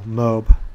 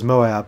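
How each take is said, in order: First: The word is said with one syllable. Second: The word is said with two syllables. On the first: The speaker calls it wrong. "not just as one syllable" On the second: The speaker calls it right. "they pronounce it as Moab with two syllables"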